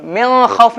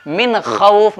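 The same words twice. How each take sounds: First: मिन खौफ with the N hummed into the nose, higher; wrong nasalized reading. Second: Slow मिन खौफ with a clear N; deliberate मिन खौफ, no nasal hum; correct izhar reading. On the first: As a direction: hide the N of मिन in a raised nasal vowel. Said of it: "मिन खौफ नहीं". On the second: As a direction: sound the noon of मिन crisply, draw out खौफ. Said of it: "नून को जाहिर करके पढ़ना है". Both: Shown as a demonstration.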